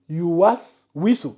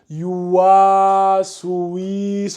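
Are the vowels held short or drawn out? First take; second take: short; drawn out. First: The vowels are kept short and tight. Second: The wa and oui vowels are drawn out. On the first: The speaker calls it right. "elle lit Yuwas Wisu" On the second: The speaker calls it wrong. "tu as tendance à allonger le wa et allonger le oui"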